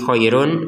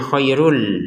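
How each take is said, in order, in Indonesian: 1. Akhirannya tetap mempertahankan bunyi n yang jelas. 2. Bunyi n digabung menjadi l. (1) "bukan lagi khairun run run run gitu" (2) "tapi dibacanya khairul"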